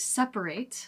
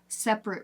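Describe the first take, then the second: First: The word is said with three full syllables. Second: The word is said with two syllables. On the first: It is the verb meaning to divide. "the verb is separate" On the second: It is the adjective meaning apart. "then you have separate rooms"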